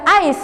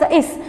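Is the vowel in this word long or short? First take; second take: long; short. First: The vowel is long, like its letter name. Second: The vowel is short, like in 'ink'. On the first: The speaker calls it right. "you are reading it as a ice" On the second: The speaker calls it wrong. "You are not reading as is"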